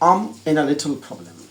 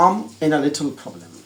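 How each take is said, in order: First: The words run together in relaxed native style. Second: The words run together in relaxed native style.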